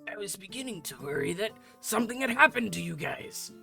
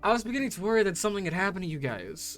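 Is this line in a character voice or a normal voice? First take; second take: character voice; normal voice. First: It is spoken in a put-on character voice. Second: It is spoken in a normal voice. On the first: "I can't do the voice right now" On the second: "Fuck the voice"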